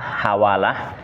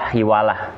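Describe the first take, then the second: First: The first vowel is an 'a' sound. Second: The first vowel is an 'i' sound. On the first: "bisa dibaca dengan fathah" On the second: "bisa dibaca dengan kasroh"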